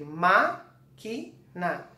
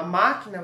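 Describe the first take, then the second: First: "máquina" slowly split into "má", "qui", "na"; syllable by syllable. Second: Said in the usual way. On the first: Shown as a demonstration. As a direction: dictate "máquina" in separate syllables, "má" held first. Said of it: "você vai escrever por sílaba". ("máquina" devagar, separando sílaba por sílaba) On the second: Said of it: "você vai escrever máquina".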